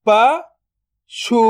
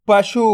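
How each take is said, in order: First: "पशु" split into प, then शु, very slow; drawn-out breakdown of "पशु"; syllable by syllable. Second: Said in the usual way. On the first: Shown as a demonstration. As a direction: sound out प ... शु with a long gap. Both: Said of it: "तो मिलके बन जाएगा".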